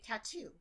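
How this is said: The middle T is a clear T.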